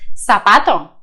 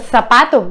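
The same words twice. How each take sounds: First: The z sounds like a plain s. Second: The z sounds like English th. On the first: "в Латинской Америке превращается в" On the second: "В Испании «с» и «с» перед «э» и «и» произносится как «з»"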